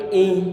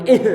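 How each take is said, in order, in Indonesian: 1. Bunyi h mengalir lancar tanpa memantul. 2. Bunyi h diakhiri dengan lepasan yang memantul. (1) "Kita buat mengalir tanpa disertai dengan pantulan" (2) "Enggak boleh ih"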